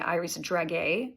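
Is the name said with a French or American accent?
American. It is said with an American accent.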